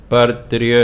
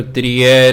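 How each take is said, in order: First: ਤ੍ਰਿਯ ending in a short a sound, as trija; correct reading. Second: ਤ੍ਰਿਯ said with a final e-like vowel, as trije; wrong reading. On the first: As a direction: say ਪਰ ਤ੍ਰਿਯ with the final a. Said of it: "ਇਹਦੀ ਆਵਾਜ਼ ਅ ਕੱਢਣੀ". (ਤ੍ਰਿਯ ਦਾ ਸਹੀ ਉਚਾਰਨ, ਅੰਤ ਵਿੱਚ ਅ) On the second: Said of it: "ਇਹਨੂੰ ਤ੍ਰਿਯ ਨਹੀਂ ਪੜ੍ਹਨਾ". (ਤ੍ਰਿਯ ਦਾ ਗ਼ਲਤ ਉਚਾਰਨ trije) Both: Shown as a demonstration.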